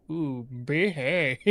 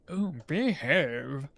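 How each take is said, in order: First: Slow, drawn-out Austin Powers through a laugh; a giggling stab at Austin Powers; Austin Powers impression. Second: Lightly voiced, slow Austin Powers; Austin Powers impression. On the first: Gamer trying Austin Powers while laughing, slow drawl. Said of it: "That was a bad impression". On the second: Gamer asks how he says it, then slow mock Austin Powers. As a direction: drawl it out like a half-hearted Austin Powers. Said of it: "How does he say it?".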